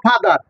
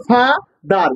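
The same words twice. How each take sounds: First: Said in the usual way. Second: ফাদার said slowly in two separate parts; split into syllables. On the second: Shown as a demonstration. Teacher shows students a two-syllable word, split slowly. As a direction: break ফাদার after ফা, with a gap before দার. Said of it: "ফা কি একটা ভাঙাল আছে".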